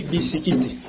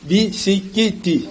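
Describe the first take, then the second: First: Said in the usual way. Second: "Bisikiti" very slow, bi-si-ki-ti; syllable-by-syllable pronunciation. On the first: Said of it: "Au lieu de dire seulement les biscuits". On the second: Shown as a demonstration. Teacher showing the added i, "Bisikiti" in slow syllables. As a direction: draw out each syllable of "Bisikiti", final i sounded. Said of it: "On ajoute i".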